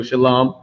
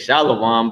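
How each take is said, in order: First: Shalom in two syllables, "shuh-LAHM"; correct pronunciation. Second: Shalom as "SHAH-la-wahm", three syllables; popular mispronunciation. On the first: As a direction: say Shalom with no added "wa". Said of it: "It's still Shalom". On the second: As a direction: slip a "wa" into Shalom. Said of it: "which people say is". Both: Shown as a demonstration.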